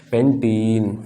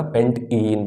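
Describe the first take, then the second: First: पेंटीन run together as one word, slowly; joined word. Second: पेंट इन said as two separate parts; split into parts. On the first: Teacher gives students the finished name, joined word. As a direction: join पेंट and इन smoothly into पेंटीन. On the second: Teacher builds the compound's name for students, split into parts. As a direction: break पेंट इन between पेंट and इन. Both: Shown as a demonstration. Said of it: "तो बन जाएगा हमारा पेंटीन".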